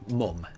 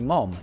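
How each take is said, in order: First: The vowel is like the one in cut. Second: The vowel is like the one in cot. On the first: This is how northern England says it. "where I grew up, uh, which is um, in northern um, part of of England. Um, we say mum" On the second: This is how Birmingham says it. "So in Birmingham, in U K, they say mom"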